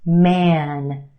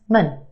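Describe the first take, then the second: First: The vowel is a full, open vowel. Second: The vowel is reduced to a schwa. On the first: "take the word M A N" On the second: "Put it in this word and it becomes mun"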